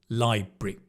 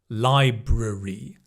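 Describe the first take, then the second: First: The middle syllable is swallowed. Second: Every syllable is said in full. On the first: "I'd kind of swallow the A and the R" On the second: "you can also say library"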